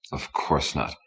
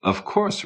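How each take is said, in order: First: "Of course not" low, dismissive and soft; scornful "Of course not". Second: "Of course" swooping up very high; high rising "Of course". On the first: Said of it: "Ricky's smile was scornful". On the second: Ricky answers, tone shown by pitch. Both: A narrator's reading.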